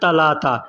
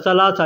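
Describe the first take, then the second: First: The consonants are pronounced as t sounds. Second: The consonants are pronounced as s sounds.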